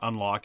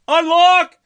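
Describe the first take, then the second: First: The word is said in a flat, plain way. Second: The word is said with exclamatory excitement. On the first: The speaker calls it wrong. "you're mispronouncing the title of the game" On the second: The speaker calls it right. "You have to get the punctuation"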